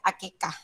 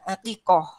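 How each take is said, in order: First: It has a plain k sound and ends in -ah. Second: It has a deep throat q sound and ends in -oh. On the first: This is how Indonesians say it. "Kalau orang Indonesia bilangnya akikah" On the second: This is the original Arabic form. "kalau aslinya bahasa Arabnya itu aqiqatun, aqiqoh ya"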